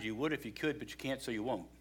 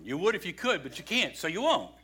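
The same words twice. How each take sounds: First: Softly, like a familiar maxim; quiet saying. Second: "would", "can't" and "won't" each stressed, "won't" falling; emphatic maxim. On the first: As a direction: say it low, almost to yourself. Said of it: "Statement I say to people sometimes". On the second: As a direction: spell it out word by word with weight. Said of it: "you can't do it on your own". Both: Shown as a demonstration.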